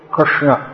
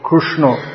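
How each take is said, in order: First: The r is followed by an 'i' vowel. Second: The r is followed by a 'u' vowel. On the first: This is the standard pronunciation. "pronounce like Rit Rit Krishna" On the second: This is a regional pronunciation. "in some parts of India it's pronounced like Ru, so as the Oriya say Krishna"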